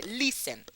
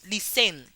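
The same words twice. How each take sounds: First: "listen" stressed at the start, LIS-en; stress on first syllable. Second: "listen" stressed on the second syllable, lis-EN; wrong stress. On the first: Teacher demonstrating listen, first syllable stressed. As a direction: keep the end of "listen" weak. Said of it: "más fuerte". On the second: Teacher showing how we don't say listen, final syllable stressed. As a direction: throw the weight onto the end of "listen". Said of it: "No decimos listen". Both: Shown as a demonstration.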